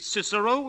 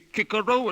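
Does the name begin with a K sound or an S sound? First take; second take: S; K. First: The name begins with a soft S sound. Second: The name begins with a hard K sound. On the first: This is the everyday traditional pronunciation. The speaker calls it right. "for the rest of their lives they'll say Cicero" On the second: This is the new school pronunciation. The speaker calls it wrong. "Making the boys say Kikero at school"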